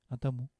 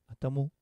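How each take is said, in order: Both takes have the same delivery.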